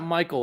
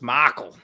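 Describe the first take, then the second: First: The name is said in a neutral accent. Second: The name is said in a Southern accent.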